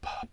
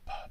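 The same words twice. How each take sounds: First: The syllable is puffed out with strong force. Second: The syllable is puffed out with moderate force. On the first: "And then even, even more" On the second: "let's increase uh, some effort or energy to it. Let's make it like this"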